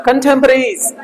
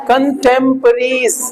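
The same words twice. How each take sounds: First: Said in the usual way. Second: कंटेम्परेरीज drawn out slowly, syllable by syllable; teacher modelling कंटेम्परेरीज slowly for repetition; slow model pronunciation. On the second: Shown as a demonstration. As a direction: say कंटेम्परेरीज slowly so the class can repeat it. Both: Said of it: "बोलो".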